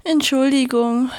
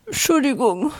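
First: Said in the usual way. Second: Entschuldigung blurred by tears, higher; Entschuldigung squeezed out crying, words smeared; tearful apology. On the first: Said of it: "riss die Sonne sich zusammen". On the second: Acted. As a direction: sob out Entschuldigung through tears. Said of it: "Aussprache von den Tränen verschleiert".

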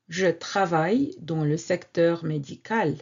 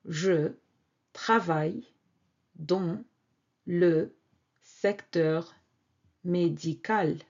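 First: Said in the usual way. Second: "je travaille dans le secteur médical" with a pause after each word. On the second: Shown as a demonstration.

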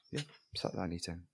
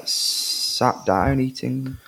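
First: Quiet repeat of sat down eating; muttered repeat. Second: Drawn-out sat down eating; slow drawn out. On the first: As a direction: say Yeah, sat down eating under breath. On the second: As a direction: stretch sat down eating slowly. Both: Shown as a demonstration.

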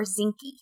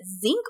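First: Zinke said as two syllables, ZINK-ee; two-syllable pronunciation. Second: Zink said as one syllable, ending on the k; one-syllable pronunciation. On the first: Host offering the other way to say the name, Zinke ending in ee. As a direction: say "Zinke" with an ee sound after the k. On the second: Host asking co-host how the secretary's name goes, Zink as one syllable. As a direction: say "Zink" with no vowel after the k. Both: Shown as a demonstration. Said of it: "is it Zink or Zinke".

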